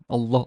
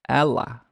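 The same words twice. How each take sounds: First: The L is dark, made at the back. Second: The L is light, made at the front. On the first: The speaker calls it right. "the velarized l sound" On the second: The speaker calls it wrong. "they kind of mispronouncing it and miss the velarization aspect of it"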